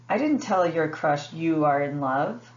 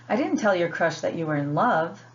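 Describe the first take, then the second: First: The word you carries the main stress. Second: The word love carries the main stress. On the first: The crush was told someone was in love, not who. "the word em emphasized is you" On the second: A milder word than love, like like, was used. "they're emphasizing the word love"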